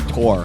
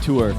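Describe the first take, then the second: First: The word is said to rhyme with 'core'. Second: The word is said with the vowel of 'poor'. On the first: This is the other person's pronunciation. The speaker calls it wrong. "You say tor" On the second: This is the speaker's own pronunciation. The speaker calls it right. "I say tour"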